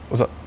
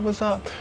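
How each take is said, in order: First: It sounds flat, short and cold. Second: It sounds warm, lively and enthusiastic. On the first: Something is wrong between them. "Just from the tone" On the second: Everything is fine between them. "usually she'd be like"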